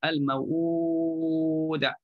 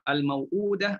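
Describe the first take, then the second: First: The long vowel is held for six counts. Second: The long vowel is held for two counts.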